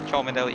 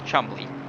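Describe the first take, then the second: First: The name is said in full, as spelled. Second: The name is said short, like Chumley. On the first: The speaker calls it wrong. "That is not the right way to pronounce it" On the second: The speaker calls it right. "It is Chumley"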